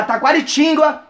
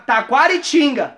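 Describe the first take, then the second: First: "Taquaritinga" slipped into "Taquaritíngua"; mispronounced town name. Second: Slow Taquaritinga, no w glide at the end; corrected town name. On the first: Announcing show dates, Taquaritinga misspoken with a "-gwa" ending. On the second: Correcting the town in show dates, Taquaritinga with clean "-ga". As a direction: say Taquaritinga carefully, ending in plain "-ga". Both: Real, not acted.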